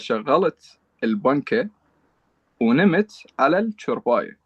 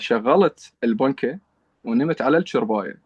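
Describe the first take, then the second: First: It is said slowly. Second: It is said at natural, normal speed.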